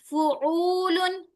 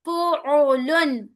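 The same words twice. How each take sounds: First: "फुउलुन" with the middle oo dragged out; wrong long middle vowel. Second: "फुउलुन" slow, three equal syllables fu-u-lun; correct even syllables. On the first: Teacher showing the wrong "फुउलुन", middle overstretched. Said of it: "फुउलुन नहीं". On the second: Teacher modelling "फुउलुन" correctly, slow and even. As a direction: measure out "फुउलुन" evenly. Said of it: "नहीं". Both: Shown as a demonstration.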